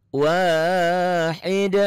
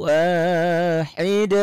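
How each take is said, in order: No difference in how they are said.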